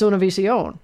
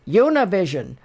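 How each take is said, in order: First: The name is pronounced with Spanish sounds. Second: The name is pronounced with English sounds. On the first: The speaker calls it right. "No, it's" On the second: The speaker calls it wrong. "I'll hear people on American television"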